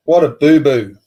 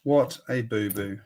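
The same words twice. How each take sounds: First: What a boo-boo called out louder; louder exclaim. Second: What a boo-boo muttered softer; quiet repeat. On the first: Scolding Lego's sellout blunder to chat, called out louder. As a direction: call it out loud. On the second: Repeating the sellout blunder to himself, softer. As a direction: drop it to a soft afterthought. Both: Real, not acted.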